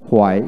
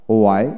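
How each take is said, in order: First: হোয়াই with an audible h first; হোয়াই starting on breathed hw; American h pronunciation. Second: ওয়াই starting on w, no h; ওয়াই with a plain w onset; British w pronunciation. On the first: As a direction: sound the h in হোয়াই. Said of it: "আমেরিকানে হ". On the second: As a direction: drop the h in ওয়াই. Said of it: "British উচ্চারণে". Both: Shown as a demonstration.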